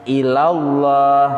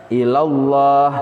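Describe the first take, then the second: The two takes are said the same way.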